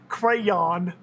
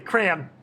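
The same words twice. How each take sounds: First: The word is said with two syllables. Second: The word is squeezed into one syllable. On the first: This is how the other person says it. "like you say c- crayon" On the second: This is how people from Minnesota say it. "We say crayon. C R A N, crayon"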